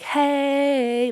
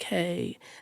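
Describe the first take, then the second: First: It is said loudly and enthusiastically. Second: It is said quietly and calmly.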